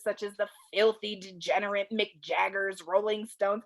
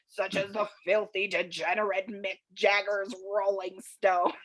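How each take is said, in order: First: It is read in the speaker's normal voice. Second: It is read in a put-on old man voice.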